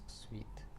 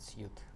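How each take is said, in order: First: The word is said like 'sweet'. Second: The word is said like 'suit'. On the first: The speaker calls it right. "today I almost always pronounce suite as suite" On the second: The speaker calls it wrong. "and not suite"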